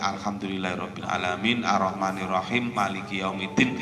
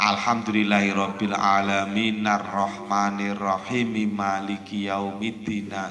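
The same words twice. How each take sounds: First: Verse endings are cut off without breathing between them. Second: Final vowels are pronounced, joining into the next word. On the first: The speaker calls it wrong. "Wakaf tapi dalam satu nafas enggak boleh" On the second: The speaker calls it right. "harokat terakhir itu harus dibaca"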